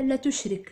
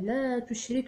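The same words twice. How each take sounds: First: The vowel in 'la' is cut short. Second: The vowel in 'la' is held long. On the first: It sounds like a command to associate partners with God. The speaker calls it wrong. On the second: It is a prohibition against associating partners with God. The speaker calls it right.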